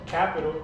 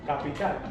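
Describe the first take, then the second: First: It is pronounced with English sounds. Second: It is pronounced with Spanish sounds. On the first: "I'm going to pronounce it in English first" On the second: "and then I'm going to pronounce it in Spanish"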